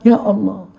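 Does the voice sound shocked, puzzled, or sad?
puzzled. It sounds puzzled and wondering.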